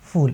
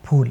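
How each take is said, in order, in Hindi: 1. पहली ध्वनि होंठ और दाँत से बनती है। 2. पहली ध्वनि दोनों होंठ मिलाकर बनती है। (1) "अगर फ के नीचे नुक्ता लगाया" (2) "फ यानी कि आपके जो होंठ हैं वो मिलने चाहिए"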